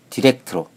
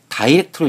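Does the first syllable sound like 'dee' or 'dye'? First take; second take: dee; dye. First: The first vowel is a short ee sound. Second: The first vowel is an eye sound. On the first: "알파벳 I가 모음 E로 발음되면" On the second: "알파벳 I를 모음 I로 발음하면"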